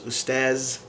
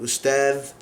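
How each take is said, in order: First: It is said with a 'z' sound, Egyptian. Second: It is said with a 'dh' sound, Standard Arabic.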